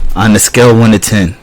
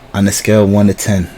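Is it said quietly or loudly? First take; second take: loudly; quietly. First: It is said more loudly. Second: It is said fairly quietly.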